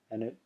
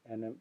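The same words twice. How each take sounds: The two takes are said the same way.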